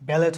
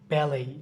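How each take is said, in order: First: The word ends with a t sound. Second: The word ends without a t sound. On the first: The speaker calls it wrong. "ব্যালেট হয় না" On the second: The speaker calls it right. "এটা উচ্চারণ হচ্ছে কি ব্যালেই"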